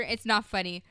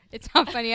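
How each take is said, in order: First: Laughing while protesting. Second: Laughing, louder insistence. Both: Real, not acted. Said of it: "I don't know why I'm laughing".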